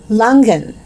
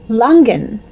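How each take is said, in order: No difference in how they are said.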